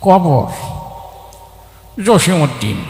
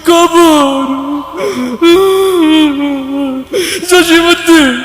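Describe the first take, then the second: First: It is said in an old, mumbling, chewing voice. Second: It is said in a weeping, crying voice. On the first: The reciter is an old man chewing betel leaf. "মুরব্বী পান খেতে খেতে আসছে, তার আবৃত্তির ঢং ছিল এরকম।" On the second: The reciter is overcome with grief. "ও আগেই কান্দা শুরু করে দিছে। তা তার আবৃত্তির ঢং ছিল এরকম।"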